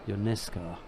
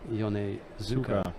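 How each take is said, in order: First: The middle 'u' vowel is dropped. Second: The middle 'u' vowel is fully pronounced. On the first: This is how the family says it in America. "in the United States of America it's Ionesco. ... they don't worry about the the U" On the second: This follows the original Japanese form. "I said Yonezuka"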